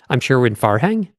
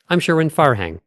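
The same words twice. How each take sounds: First: "Farhang" rising as if unsure; upward inflection. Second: "Farhang" falling to a full close; finished thought. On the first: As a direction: lift "Farhang" like a question, losing credibility. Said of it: "Say it with an upward inflection". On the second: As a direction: complete the thought, dropping "Farhang" firmly. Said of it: "So finish one thought". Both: Shown as a demonstration.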